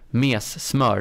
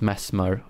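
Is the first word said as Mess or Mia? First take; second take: Mia; Mess. First: The first word is said as Mia. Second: The first word is said as Mess. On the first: The speaker calls it right. "It's called Mias Smör" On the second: The speaker calls it wrong. "not Mess Smör"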